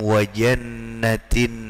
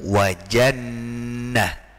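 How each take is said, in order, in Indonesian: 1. Kata itu berakhir dengan bunyi t, lalu bersambung. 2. Kata itu berakhir dengan bunyi h yang lembut, lalu berhenti. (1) "kalau diwasolkan, kalau disambungkan dengan huruf, dengan kalimat sesudahnya, itu tetap dibaca jannatin" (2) "ketika diwaqafkan, maka dibaca dengan jannah"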